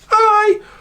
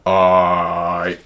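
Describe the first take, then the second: First: It is said in a high voice. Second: It is said in a low voice.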